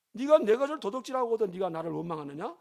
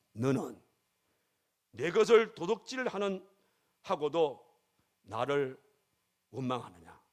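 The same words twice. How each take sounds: First: One unbroken reproachful question, rising at the end; higher-pitched challenge in a single sweep; God's rebuke. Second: Slow, halting rebuke with pauses between phrases; weighty, measured question that drops away on 원망하느냐; God's rebuke. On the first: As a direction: press 네가 high, then run straight through to a rising 원망하느냐. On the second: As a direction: deliver God's reproach piece by piece, falling at the end. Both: Acted. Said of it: "하나님께서 그 여인에게, 그 집사에게 깨달음을 주신".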